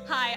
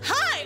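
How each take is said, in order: First: It is said more calmly. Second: It is said with very high energy.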